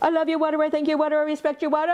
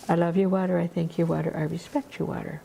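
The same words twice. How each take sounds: First: It is said very fast. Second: It is said at a normal pace.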